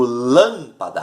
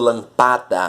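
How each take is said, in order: First: The stress falls on the first syllable. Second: The stress falls on a later syllable. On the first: The speaker calls it right. "eu digo lâmpada" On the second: The speaker calls it wrong. "eu não digo lampada"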